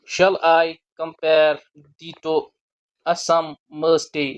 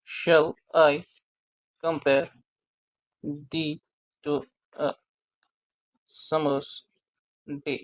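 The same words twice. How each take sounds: First: "Shall I compare thee to a summer's day?" very slow, every second syllable stressed; rhythmic reading. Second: Said in the usual way. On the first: Shown as a demonstration. Teacher scanning Shakespeare's line to students, marking each stressed beat. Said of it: "अगर हम इस line को rhythm के साथ पढ़ें तो ऐसे आता है". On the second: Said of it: "sonnet eighteen की ओपनिंग लाइन है".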